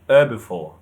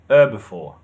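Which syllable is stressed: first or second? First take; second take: first; first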